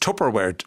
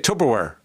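First: The middle consonant sounds like a 'p'. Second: The middle consonant sounds like a 'b'. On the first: The speaker calls it right. "It's Tupperware with peas" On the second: The speaker calls it wrong. "I used to say Tupperware with bees"

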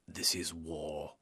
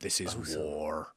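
First: The final R sound is dropped. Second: The final R sound is pronounced.

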